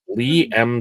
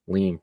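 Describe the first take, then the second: First: The name is split into two separate parts. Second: The name is blended into one word. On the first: The speaker calls it right. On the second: The speaker calls it wrong.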